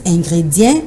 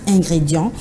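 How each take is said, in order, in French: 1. La dernière syllabe ne se termine pas par la voyelle 'an'. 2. La dernière syllabe se termine par la voyelle nasale 'an'. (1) "certaines personnes qui disent ingrédient" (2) "c'est le son en qui pose problème"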